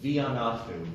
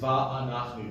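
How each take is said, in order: First: The first syllable has an i vowel. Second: The first syllable has an open a vowel. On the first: The speaker calls it wrong. "it's not a chiri" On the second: The speaker calls it right. "It's va'anachnu. Don't be afraid of the multiple patach"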